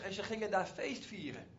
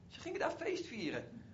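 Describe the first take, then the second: First: Said in the usual way. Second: Feest vieren raised high with a falling close; higher, savouring repetition; emphatic repeat. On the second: Shown as a demonstration. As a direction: repeat it with delight, stressing feest.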